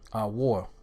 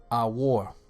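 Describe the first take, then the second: The two takes are said the same way.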